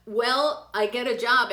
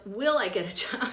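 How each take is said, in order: First: "job" read slowly as spelled, a bit louder; reading the misspelling. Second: Said in the usual way. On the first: Shown as a demonstration. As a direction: sound out the typo in "job" slowly. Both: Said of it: "we gotta work on that spelling".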